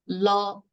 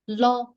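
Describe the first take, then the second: First: The pitch stays level and mid. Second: The pitch stays level and high. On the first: "the even tone is la" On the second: "The second"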